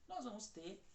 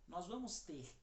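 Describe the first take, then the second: Both takes have the same delivery.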